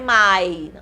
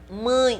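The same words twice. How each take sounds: First: The vowel is plain, without nasalization. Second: The vowel is strongly nasalized. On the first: The speaker calls it wrong. "não é" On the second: The speaker calls it right. "é uma palavra muito nasal"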